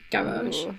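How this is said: It is said in a posh British way. "I perceive it as like a posh British pronunciation"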